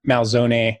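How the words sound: The name has an Italian pronunciation. This is the original family pronunciation. "So really Malzone"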